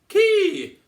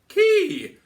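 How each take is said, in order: First: The vowel sounds relaxed and lifted. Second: The vowel sounds relaxed and lifted.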